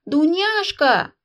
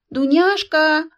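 First: Loud, slow, higher call; old princess yelling for her maid; shouting a maid. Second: Loud, slow, higher repeated call; old princess yelling once more; shouting again. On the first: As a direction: bellow across the house. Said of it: "во всё горло закричала". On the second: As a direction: bellow the name louder still. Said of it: "повторила старуха". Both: A narrator's reading.

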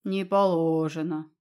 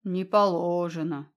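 First: Booming. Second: Deep bass. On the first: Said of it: "прогудела сверху". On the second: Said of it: "густой сочный бас". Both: A narrator's reading.

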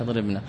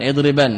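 First: اضربن said as idribna, with a vowel after the nun; اضربن ending in -na, as a softer aside; wrong form. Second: اضربن said as idriban, short final nun, ending on -ban; correct form. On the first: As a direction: show the wrong way, اضربن ending in -na, and drop your voice. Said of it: "ليس". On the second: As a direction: model اضربن with the light nun on the end. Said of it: "ليس اضربن". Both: Shown as a demonstration.

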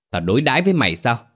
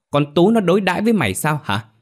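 First: Quick, higher demanding question; angry questioning. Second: Much higher, emphatic angry question; escalating fury. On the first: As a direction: fire off a rapid accusing question. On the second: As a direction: push the repeated question up into outrage. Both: A narrator's reading. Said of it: "Má Bảy lúc này nổi điên".

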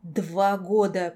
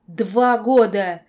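First: Slow, slightly louder hoarse cry; hoarse croak. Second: Very loud, slow, drawn-out shout; anguished yell. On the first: Enraged girl facing the monster, hoarse croak. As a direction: croak it out, drawing out both words. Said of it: "прохрипела я". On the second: Girl yelling at her nightmare through tears, anguished yell. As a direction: scream it, stretching both words. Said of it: "заорала я". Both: A narrator's reading.

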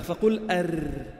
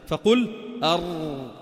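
First: أر with a flat tongue, slow and thin; light R. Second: أر with a hollowed tongue, very slow and full; heavy R. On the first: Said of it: "وإذا أردت أن ترقق الراء". (راء مرققة ببطء) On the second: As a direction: draw out a heavy emphatic أر. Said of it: "إذا أردت أن تفخم الراء فقعر لسانك". (راء مفخمة ببطء) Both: Shown as a demonstration.

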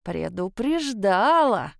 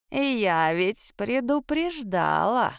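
First: Put-on creaky old woman repeating. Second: Put-on slow, creaking old lady's voice; creaky old woman. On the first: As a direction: hammer it home, slowly. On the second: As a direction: drag it out like a grumpy crone. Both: A narrator's reading. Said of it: "проскрипела рядом мадам Тейра".

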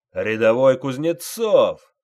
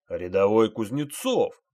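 First: Loud, slow drill-sergeant bellow; sergeant yelling. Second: Stern, threatening call of the name; menacing repeat. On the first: Sergeant roars at private Kuznetsov, full bellow. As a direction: roar the name across the parade ground. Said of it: "заорал он". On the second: Sergeant repeats the name to the silent private, menacing. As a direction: lean on it like a threat. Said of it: "грозно повторил старшина". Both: A narrator's reading.

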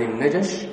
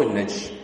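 First: "النجش" with a short a after the j; fatha on jim. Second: "النجش" with the j unvowelled before sh; sukun on jim. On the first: Teacher giving students the first option, "النجش" as najash. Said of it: "والأسهل في النطق الفتح". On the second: Teacher giving students the alternative option, "النجش" as najsh. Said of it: "ذكر السكون وبعضهم ذكر الوجهين". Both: Shown as a demonstration.

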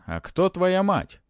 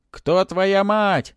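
First: High, slow probing question; mummy questioning with a touch of unease; alarming undertone. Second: Loud, high, long-drawn cry; shouting spirits. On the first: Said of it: "В голосе мумии прозвучали тревожные". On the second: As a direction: holler the question, stretching it out. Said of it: "закричали духи". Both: A narrator's reading.

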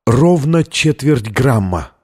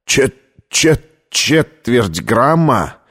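First: Slow, measured announcement after a breath; blurted answer. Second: Stammering, halting repetition in shock; choked disbelief. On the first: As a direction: state the figure deliberately, falling at the end. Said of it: "набрала полную грудь воздуха и выпалила". (выпалить ответ, чеканя слова) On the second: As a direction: stumble on the first syllable, then drag it out. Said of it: "снова начался приступ кашля". (запинаясь, потрясённо) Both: A narrator's reading.

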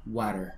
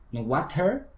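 First: "Water" with a Spanish tapped r; student-style "Water"; wrong water. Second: "water" with a flapped t, rising; american water. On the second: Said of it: "Podrías decir water". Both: Shown as a demonstration.

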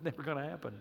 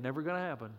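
First: Chuckling, much softer and lower; laughing. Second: Said in the usual way. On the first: Real, not acted. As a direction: laugh it off softly. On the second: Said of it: "repeated joke".

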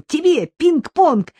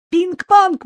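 First: "Тебе пинг-понг" drawn out slowly, high and loud with a long fall; jubilant. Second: "Пинг-понг" burst out very high and loud, quick and falling; boy blurting out the news; jubilant. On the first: Boy presenting the ping-pong table to his mum, slow jubilant stretch. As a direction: savour the gift for mum. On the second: Boy telling mum about the ping-pong table, jubilant high outburst. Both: A narrator's reading. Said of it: "ликовал мальчик".

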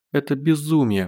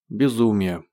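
First: A touch of a tearful moan, higher; moaning through tears. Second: Said in the usual way. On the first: Acted. Zhenya in Gosh's arms moans, lightly tearful and higher. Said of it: "простонала Женя, глотая слёзы". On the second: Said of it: "отозвался Гош".

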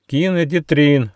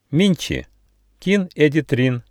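First: Higher, eager echo of a greeting; raised, in-unison style echo; chorused repeat. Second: Mildly loud call to strangers; higher-pitched, carrying greeting; loud announcement. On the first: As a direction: repeat it brightly as a group would. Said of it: "дружно повторили Рыж, Гоша и Почемучка". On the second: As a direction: say it out clearly, raised pitch. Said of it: "громко сказал Нюфа". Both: A narrator's reading.

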